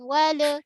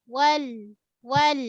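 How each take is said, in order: First: "Wala" with the lam bounced into an extra a; wrong bouncing lam. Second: "wal" with the lam flowing a little then stopped; correct flowing lam. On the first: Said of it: "jangan sampai tertawallut, terlantun". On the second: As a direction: let the lam in "wal" flow, then stop. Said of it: "Mengalir sikit, tahan". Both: Shown as a demonstration.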